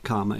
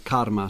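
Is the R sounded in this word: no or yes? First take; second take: no; yes. First: It is said without an R sound. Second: It is said with a clear R sound. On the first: The speaker calls it wrong. "it's not karma as in the Kama Sutra" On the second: The speaker calls it right. "I'm pronouncing the R as told by you"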